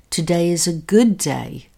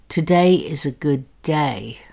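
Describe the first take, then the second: First: The stress is on "good". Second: The stress is on "day".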